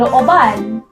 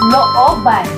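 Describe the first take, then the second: First: The stress is on the last syllable. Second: The stress is on the second-to-last syllable. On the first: It means to break in or rob. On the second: It means a yard or backyard.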